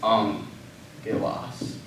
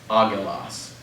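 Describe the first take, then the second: First: The double consonant is sounded as ng. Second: The double consonant is sounded as a hard g. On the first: The speaker calls it right. "But instead it's angelos" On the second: The speaker calls it wrong. "we look at it and we say that should be agilas"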